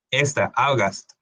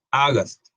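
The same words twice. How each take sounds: First: August drawn out slowly, the Au like an O; slow English demo. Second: August said crisply, Au like an O, falling end; English word demo. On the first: Teacher slowly models the word for students. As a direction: stretch August for the class. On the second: Teacher models the word again for students. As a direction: say August once, clean. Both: Shown as a demonstration. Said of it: "Esta es el sonido de una O".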